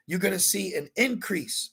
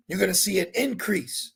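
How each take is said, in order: Both takes have the same delivery.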